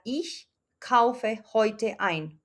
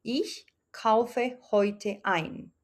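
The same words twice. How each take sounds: First: Slow model sentence. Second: "Ich kaufe heute ein" said again even slower, lingering on Ich; a slower second take for the class to copy; slower repeat. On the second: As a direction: repeat it very slowly, word by word, leaning on "ich". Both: Shown as a demonstration. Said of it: "entonces la oración quedaría".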